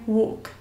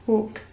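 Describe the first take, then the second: First: It is said with a British accent. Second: It is said with a British accent.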